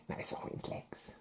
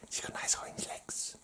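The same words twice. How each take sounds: First: Unvoiced leering whisper; faint sleazy whisper. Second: Unvoiced sly whisper; hushed creepy whisper. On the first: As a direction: lean in and breathe it. Whispered again. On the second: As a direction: breathe it like a leering secret. Whispered lewd aside.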